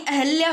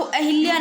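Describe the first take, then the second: First: अहल्या with hal in the middle; no i vowel. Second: अहिल्या with hil in the middle; wrong i vowel. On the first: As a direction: correct it to अहल्या, schwa after h. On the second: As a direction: say अहिल्या with a short i after h. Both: Shown as a demonstration. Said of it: "अहिल्या नहीं अहल्या होता है".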